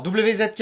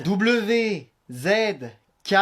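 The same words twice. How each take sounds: First: "W Z K" quickly, letters run together; too-fast dictation. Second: "W Z K" letter by letter, long pauses; slowed dictation. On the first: Child dictating the wifi code to parent, too fast. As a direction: rattle off "W Z K" in one run. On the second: Child dictating the wifi code to parent, slowly. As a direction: spell out "W Z K" slowly, each letter apart. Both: Acted. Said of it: "moins vite".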